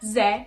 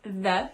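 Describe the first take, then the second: First: The word begins with a z sound. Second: The word begins with a th sound. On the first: The speaker calls it wrong. "how you say ze instead of the" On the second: The speaker calls it right. "instead of the"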